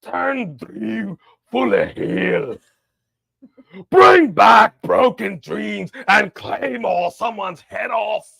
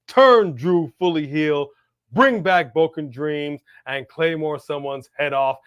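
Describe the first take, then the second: First: It is read in a put-on Scottish accent. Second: It is read in the speaker's normal accent. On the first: The speaker calls it right. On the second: The speaker calls it wrong.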